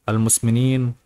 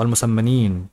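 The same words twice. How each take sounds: First: المسمنين said as almusminin, short and clipped; first stumbling read of المسمنين, short i vowels; misread word. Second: المسمنين said as almusammenin with a long doubled m; careful reread of المسمنين, stressing the doubled m; corrected word. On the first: Narrator misreads the word المسمنين before fixing it. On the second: Narrator corrects the title المسمنين, saying it slowly and carefully. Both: Shown as a demonstration. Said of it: "آه، المسمنين".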